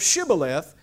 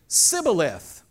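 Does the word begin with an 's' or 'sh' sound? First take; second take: sh; s. First: The word begins with a 'sh' sound. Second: The word begins with a plain 's' sound. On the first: The speaker is marked as an insider. The speaker calls it right. "couldn't say the word correctly" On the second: The speaker is marked as an outsider from Ephraim. The speaker calls it wrong. "He would say Sibboleth instead of Shibboleth"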